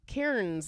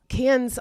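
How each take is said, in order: First: It is said in an American way. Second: It is said in the local Australian way. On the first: The speaker calls it wrong. "Americans will be like Cairns" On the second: The speaker calls it right. "But it's Cannes"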